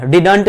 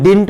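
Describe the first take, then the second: First: Didn't as two syllables, "did-ant"; wrong pronunciation. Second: Didn't as one syllable, "dint"; correct contracted form. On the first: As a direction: say didn't with a vowel before the nt. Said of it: "didn't नहीं पढ़ते हैं". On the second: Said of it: "हम लोग didn't पढ़ते हैं". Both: Shown as a demonstration.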